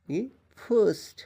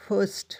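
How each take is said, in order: First: فرسٹ stretched slowly and high, every sound apart; slow careful demo. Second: فرسٹ said high and short; quick model word. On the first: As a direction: drag out فرسٹ for students to copy. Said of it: "یہاں پر زبر آتا ہے". (فرسٹ آہستہ اور کھینچ کر) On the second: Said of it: "الف کے اوپر جب زیر آتا ہے". (فرسٹ تیزی سے بلند آواز میں) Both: Shown as a demonstration.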